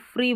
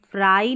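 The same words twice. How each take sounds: First: फ्री with a clipped short "i", no glide; correct short vowel. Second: फ्राई with a long "ai" glide, quickly; wrong long vowel. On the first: Teacher shows students the correct short vowel. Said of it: "हम फ्री बोल रहे हैं". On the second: Teacher shows students the wrong long vowel. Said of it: "हम फ्राई नहीं बोल रहे हैं". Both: Shown as a demonstration.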